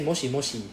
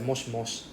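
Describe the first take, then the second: First: The vowel after 'sh' is clearly heard. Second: The vowel after 'sh' is silent. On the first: The speaker calls it wrong. "I don't say moshi moshi" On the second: The speaker calls it right. "the E is actually silent in this case"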